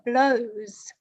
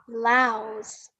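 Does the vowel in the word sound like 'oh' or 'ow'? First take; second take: oh; ow. First: The vowel sounds like 'oh', as in blows. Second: The vowel sounds like 'ow', as in cow. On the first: The speaker calls it wrong. "You said she is wearing a blouse" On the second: The speaker calls it right. "the correct pronunciation is blouse"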